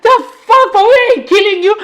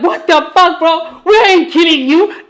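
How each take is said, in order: First: Much higher, louder mock outrage; squeaky, over-the-top what-the-fuck; exaggerated disbelief. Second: Higher, mock-incredulous; a mild, laughing what-the-fuck; retold disbelief. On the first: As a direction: ham up a friend's baffled cry. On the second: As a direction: toss it off like a friend's joke.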